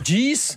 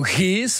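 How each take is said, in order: First: The acronym is pronounced the English way. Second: The acronym is pronounced the Dutch way.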